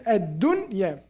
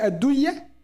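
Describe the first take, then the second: First: The noon sound is pronounced clearly and separately. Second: The noon is merged into the following sound. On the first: The speaker calls it right. "It has to say الدنيا. There's idhar" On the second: The speaker calls it wrong. "do we say الدنيا? We cannot"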